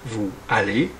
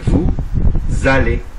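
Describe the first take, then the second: First: The words are said separately, without a z link. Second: A z sound links the two words together. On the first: The speaker calls it wrong. "on ne dit pas" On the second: The speaker calls it right. "Là aussi, on fait la liaison"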